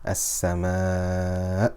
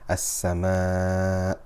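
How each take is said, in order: First: The voice rises slightly on an audible glottal stop. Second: The ending fades with no audible glottal stop. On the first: The listener knows a hamza is there. The speaker calls it right. "now I'll say it again with nabr" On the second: The listener cannot tell a hamza is there. The speaker calls it wrong. "I will say it again without nabr"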